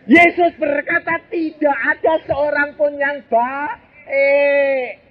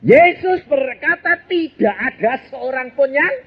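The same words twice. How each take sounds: First: "Yesus berkata tidak ada seorang pun yang baik" drawn out slowly, pitched high with a falling end; slow solemn emphasis. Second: Said in the usual way. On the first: Shown as a demonstration. Preacher quoting Jesus to the congregation, slow and solemn. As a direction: lean on "Yesus" and slow right down.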